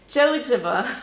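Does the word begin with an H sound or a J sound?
J sound. It starts with a J sound.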